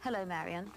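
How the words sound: The greeting sounds snotty and dismissive.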